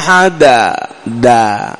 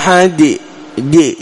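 First: The final d is followed by an a vowel. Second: The final d is followed by an i vowel. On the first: "تقربها إلى، تخلطها بالفتحة" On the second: "تقربها إلى الكسرة"

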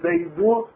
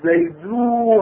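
First: The final u vowel is short. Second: The final u vowel is drawn out long. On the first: "هي ضمة" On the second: "هذه مدة"

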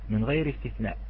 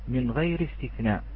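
The two takes are said the same way.

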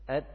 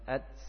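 First: The final t is released with breath in place. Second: The final t slides into a hissing s sound. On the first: The speaker calls it right. "Jadi bunyinya seperti ini" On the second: The speaker calls it wrong. "Apabila bunyi seperti ini bunyi pada makhraj sin, bukan makhraj ta"

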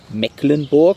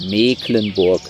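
First: The first vowel is short. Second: The first vowel is long. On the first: The speaker calls it wrong. "Das ist nämlich nicht Mecklenburg" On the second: The speaker calls it right. "sondern Mecklenburg. Dehnungs-C"

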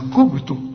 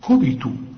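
First: The b is not followed by an i vowel. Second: The b is followed by an i vowel. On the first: The speaker calls it wrong. "في ناس تقول لك كبتوا، لا" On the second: The speaker calls it right. "الباء هنا لازم تطلعها مكسورة، كوبي أحسن"

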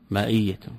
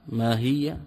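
First: The middle consonant is a glottal stop. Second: The middle consonant is an h sound. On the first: "أبدلت الهاء همزة" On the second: "وإن شئت أبدلت الهمزة هاء"

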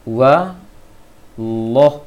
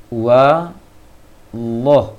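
No difference in how they are said.

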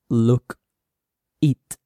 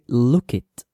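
First: The two words are said separately. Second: The k sound links into the next word. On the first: The speaker calls it wrong. "we don't say" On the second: The speaker calls it right. "we say look it. la K y la I se juntan"

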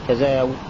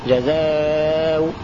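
First: The final vowel is held short. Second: The final vowel is held medium length. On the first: "مع القصر حركتين" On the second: "توسط"

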